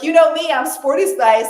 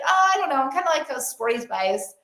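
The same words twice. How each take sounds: First: Loud, higher, confident declaration; self-assured, raised-voice boast; empowered. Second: Imitating an unsure friend, high sighing start that sinks; mock half-hearted, deflating admission; disempowered. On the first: Acted. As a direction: own it proudly and punch it out. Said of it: "if she loved it". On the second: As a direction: waver and back away from the claim. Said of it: "in this very disempowered voice".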